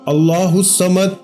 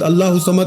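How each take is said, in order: First: Each word is said slowly and separately. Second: The words are rushed and run together. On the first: The speaker calls it right. "एक एक लफ्ज अलग अलग करके समझाया है, इसी तरह पढ़ेंगे तो इंशाअल्लाह फायदा होगा" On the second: The speaker calls it wrong. "बहुत सारे लोग भला कैसे पढ़ते हैं ... खुदारा ऐसे नहीं पढ़ना"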